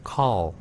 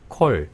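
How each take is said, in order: First: The vowel is an open, English aw sound. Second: The vowel is a close, Korean-style o sound. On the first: The speaker calls it right. "어 발음을 제대로 하면 call" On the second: The speaker calls it wrong. "제가 그냥 막 해버리면 call"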